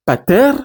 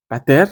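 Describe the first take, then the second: First: Pater with the final eta held long. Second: Pater with a short clipped final e; short epsilon. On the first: Teacher contrasting nominative pater for students, long final vowel. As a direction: say pater stretching the last vowel. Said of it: "Quand eta, c'est un et long". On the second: Teacher giving vocative pater for students, short final vowel. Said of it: "C'est un et court". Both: Shown as a demonstration.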